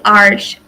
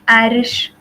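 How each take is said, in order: First: The r runs straight into sh, no vowel. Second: A short vowel sits between r and sh. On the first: This is the form other people use. The speaker calls it wrong. "we don't say Arsh" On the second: This is the form used in Kurdish. The speaker calls it right. "We say Arish"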